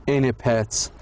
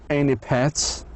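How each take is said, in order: The two takes are said the same way.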